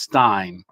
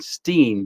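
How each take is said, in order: First: The vowel sounds like 'eye'. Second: The vowel sounds like 'ee'. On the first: The speaker calls it right. "but it's Stein" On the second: The speaker calls it wrong. "so I was saying Steen"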